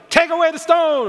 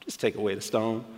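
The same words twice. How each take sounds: First: High, loud command; commanding call. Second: Much lower and softer, gently; calm and quiet. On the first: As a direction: bark it out with authority. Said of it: "I wonder if he was like". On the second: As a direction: say it softly, almost to yourself. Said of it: "or if he was kinda like". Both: Shown as a demonstration.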